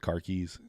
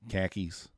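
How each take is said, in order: First: The r sounds are pronounced clearly. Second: The r sounds are dropped, like khakis.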